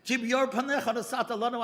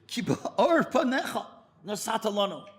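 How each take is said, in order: First: The verse again as a mild tearful plea; tearful repeat. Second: Said in the usual way. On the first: Retold or imitated. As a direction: repeat the verse, half crying. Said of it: "He can't stop crying". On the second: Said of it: "saying these words over again".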